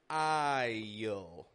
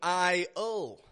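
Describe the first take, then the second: First: A y glide links the vowel to the L. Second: The vowel runs into the L without a y glide. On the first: The speaker calls it right. "but I'm making a y, y, I-L" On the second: The speaker calls it wrong. "I'm not going I-L"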